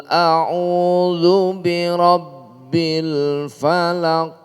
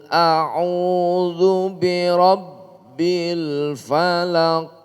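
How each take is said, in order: The two takes are said the same way.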